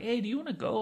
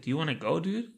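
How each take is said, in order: First: Breezy, offhand invite pitched higher; casual offer to a friend; kinda casual. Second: Said in the usual way. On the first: Retold or imitated. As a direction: toss it off casually, like it's no big deal. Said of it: "Like, kinda casual". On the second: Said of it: "He's like".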